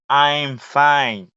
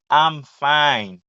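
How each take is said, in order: First: I am is said as two full words. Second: I am is shortened to one syllable. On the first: "yo di I am" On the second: "fom kontrakte"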